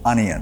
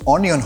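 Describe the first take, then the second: First: The first vowel is an 'uh' sound. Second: The first vowel is an 'oh' sound. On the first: The speaker calls it right. "সেটাকে pronounce করব আ" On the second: The speaker calls it wrong. "অনিয়ন হবে না"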